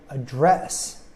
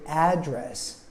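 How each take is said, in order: First: The stress is on the second syllable. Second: The stress is on the first syllable. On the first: "I emphasize the second syllable" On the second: "where I emphasize the first syllable and it has an a sound like apple"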